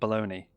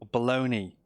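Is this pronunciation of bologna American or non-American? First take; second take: American; non-American. First: It is said the way Americans pronounce it. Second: It is said in the speaker's own non-American way.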